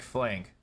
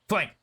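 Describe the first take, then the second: First: It is said in a relaxed, laid-back way. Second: It is said quietly but with urgency.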